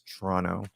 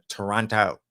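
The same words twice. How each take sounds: First: The word is said with its sounds reduced. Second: The word is said with every sound spelled out. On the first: The speaker calls it right. "It's Toronto" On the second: The speaker calls it wrong. "not to pronounce it"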